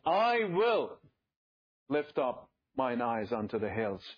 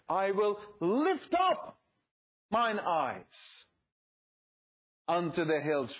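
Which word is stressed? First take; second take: will; lift up. First: The stress falls on the word will. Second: The stress falls on the words lift up. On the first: The speaker makes a deliberate choice to look up. "I will. Let's emphasize that" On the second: The focus is on the act of raising the eyes. "If you emphasize the lift up"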